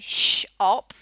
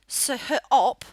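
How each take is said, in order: First: The word begins with an 'sh' sound. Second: The word begins with a plain 's' sound. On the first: The speaker calls it right. "we say sh-op" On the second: The speaker calls it wrong. "we don't say s-op"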